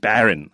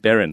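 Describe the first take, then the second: First: The first vowel is strong and full. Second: The first vowel is weak and reduced. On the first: This is the dictionary form the teachers do not use. "他不是念 Baron 啊，没有那么强的一个声音" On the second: This is how American teachers actually say it. "他也是念 Baron"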